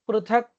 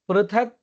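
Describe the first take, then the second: Both takes have the same delivery.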